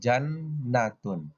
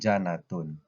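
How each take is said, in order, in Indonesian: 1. Bunyi n dibaca panjang, digandakan. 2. Bunyi n dibaca pendek, tunggal. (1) "kita bacanya di double"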